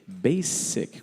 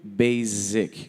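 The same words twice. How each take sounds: First: The middle consonant is a hissing S sound. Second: The middle consonant is a buzzing Z sound. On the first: The speaker calls it right. "com som de S" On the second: The speaker calls it wrong. "que foi o que você falou, com o som de Z"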